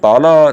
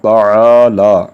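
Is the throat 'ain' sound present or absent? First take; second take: absent; present. First: It is said without the throat 'ain' sound. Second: It is said with the throat 'ain' sound. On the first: The speaker calls it wrong. "तो ये ताला नहीं बोलना चाहिए" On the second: The speaker calls it right. "आइन को भी हमें अदा करना चाहिए।"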